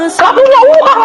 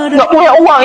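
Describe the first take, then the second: First: Much higher, a laughing cry of disbelief; wry exclamation. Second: Said in the usual way. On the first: Real, not acted. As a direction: blurt it out high as if half laughing at it. Exclaims about having no money.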